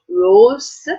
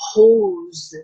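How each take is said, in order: First: The r is made at the front of the mouth. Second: The r is made back in the throat. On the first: The speaker calls it wrong. "not rose" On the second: The speaker calls it right. "the air is coming from the throat"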